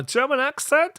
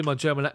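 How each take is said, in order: First: High, louder comic German accent. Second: Said in the usual way. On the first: Shown as a demonstration. Streamer jokingly showing viewers his German accent, high and loud. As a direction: put on a high-pitched German accent, voice leaping up. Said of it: "I'm not gonna do my German ac". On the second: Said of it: "my German accent".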